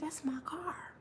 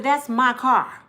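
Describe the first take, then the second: First: Whispered in disbelief; hushed, awestruck whisper; stunned whisper. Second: Slow, loud and firm; slow, louder demand; firm claim. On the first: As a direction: breathe it out in shock. Spotting her stolen car. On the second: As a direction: plant your feet and claim it. Confronting dudes at car. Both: Retold or imitated.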